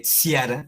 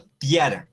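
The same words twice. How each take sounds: First: "ciara" read with s as sia-ra; wrong reading. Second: "tiara" with clear hard t; "tiara" hard t start. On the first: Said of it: "no se lee ciara". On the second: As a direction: say "tiara" with a crisp t. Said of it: "sino tiara". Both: Shown as a demonstration.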